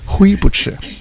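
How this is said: It is said in a heavy Taiwanese accent. "因为他操着比较重的台湾口音呢，就说灰不吃"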